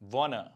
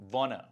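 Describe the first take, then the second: No difference in how they are said.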